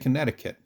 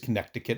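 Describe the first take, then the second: First: The middle c sound is left out. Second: The middle c sound is pronounced as spelled. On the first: The speaker calls it right. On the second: The speaker calls it wrong.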